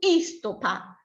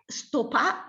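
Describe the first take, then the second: First: The word begins with an added i sound. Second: The word begins directly with the s sound. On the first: The speaker calls it wrong. "non istopà" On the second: The speaker calls it right. "è stopà"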